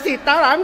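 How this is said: It is said with anger.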